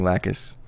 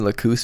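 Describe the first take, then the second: First: The name gets its familiar, usual pronunciation. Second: The name gets its Latin-style pronunciation. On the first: "when you're used to hearing Lacus" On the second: "Lacus might be the Latin uh, pronunciation"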